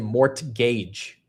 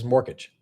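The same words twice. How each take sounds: First: The T sound in the middle is clearly pronounced. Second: The T sound in the middle is barely heard. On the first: "putting more emphasis to say mortgage" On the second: "There's a little bit of a tuh sound there. It's not as aggressive"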